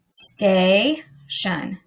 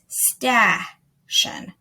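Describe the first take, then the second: First: The first vowel sounds like the letter name A. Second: The first vowel is a short 'a' as in cat. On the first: The speaker calls it right. "its long sound, A ... That sounds right" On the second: The speaker calls it wrong. "The other option ... that doesn't sound right"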